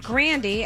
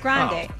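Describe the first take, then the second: First: The name ends rhyming with candy. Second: The name ends without rhyming with candy. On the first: This is how the family said the name. The speaker calls it right. "pronounced her last name [name] as if rhyming with candy" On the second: This is the changed form used after fame. The speaker calls it wrong. "her brother changed it to [name]"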